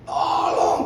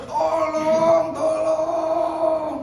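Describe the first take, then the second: First: Whispered, breathless tolong; weak call for help. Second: High, loud shout tolong; louder shout for help. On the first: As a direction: call out with no voice left. (bisikan minta tolong) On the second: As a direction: yell it out from the cliff. (teriakan tolong yang lebih keras) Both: Retold or imitated. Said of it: "teriak lagi lebih keras".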